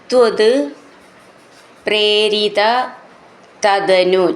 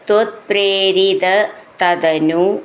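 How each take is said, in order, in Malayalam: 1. വാക്കുകൾ വേറെ വേറെയായി ഉച്ചരിക്കുന്നു. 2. വാക്കുകൾ ഒരു ബന്ധിപ്പിക്കുന്ന s ചേർത്ത് ഉച്ചരിക്കുന്നു.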